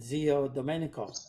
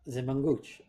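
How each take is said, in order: First: The name is said in full standard Italian. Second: The name is said clipped, in southern dialect. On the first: "if you're going to do the right pronunciation" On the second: "but they always called him"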